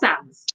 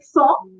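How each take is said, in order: First: The final n and s are clearly pronounced. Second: The final n and s are left silent. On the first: The speaker calls it wrong. "is not sans" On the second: The speaker calls it right. "N S is silent and is replaced by W when you pronounce it"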